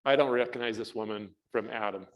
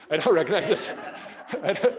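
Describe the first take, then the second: First: Said in the usual way. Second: Laughing disbelief. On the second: Retold or imitated. To the class, laughing at not knowing her. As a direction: laugh at your own confusion.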